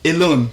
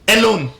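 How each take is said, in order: First: The first vowel is a weak schwa sound. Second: The first vowel is a full, strong vowel. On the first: The speaker calls it right. "What can you say?" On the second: The speaker calls it wrong. "It's not beginning with this sound. So you cannot say alone"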